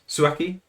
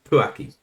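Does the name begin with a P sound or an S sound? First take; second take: S sound; P sound. First: The name begins with an S sound. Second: The name begins with a P sound.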